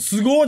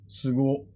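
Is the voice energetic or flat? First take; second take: energetic; flat. First: It is said with high, lively energy. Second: It is said with low, flat energy. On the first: Sincere admiration. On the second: Condescending, unimpressed praise.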